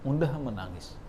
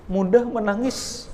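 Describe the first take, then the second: First: Softer repeat of "Mudah menangis", falling; soft echo. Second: Raised emphasis. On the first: Preacher repeating that Umar cries easily, soft echo. Preacher stresses Umar's softness. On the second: Preacher stressing that Umar cries easily, raised voice. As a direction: lift "mudah menangis" high and strong. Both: Shown as a demonstration.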